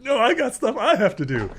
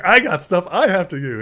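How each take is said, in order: First: Very high, loud comic retort; mock Kortek. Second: Loud, high comic protest; hammed-up imitation insisting on his own business; mock Ulfgar. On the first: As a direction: squawk back in hammed-up one-upmanship, near laughing. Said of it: "Kortek's like". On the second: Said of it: "Ulfgar's like".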